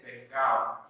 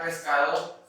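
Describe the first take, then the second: First: "pescado" with the S softened to an H; aspirated S. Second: "pescado" with a clearly sounded S; clearly pronounced S. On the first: Teacher imitates a coastal speaker, "pescado" with aspirated S. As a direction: coastal Ecuadorian "pescado", breathed H for the S, D dropped. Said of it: "Siempre con la aspiración de esta letra". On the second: Teacher shows how highland speakers say it, "pescado" with clear S. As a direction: say "pescado" with every consonant, S fully hissed. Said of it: "la pronunciamos acentuadamente a la S". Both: Shown as a demonstration.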